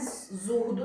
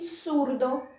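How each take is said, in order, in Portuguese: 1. A palavra começa com um z sonoro, de zumbido. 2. A palavra começa com um s suave. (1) "não é zurdo" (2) "E surdo, não é zurdo"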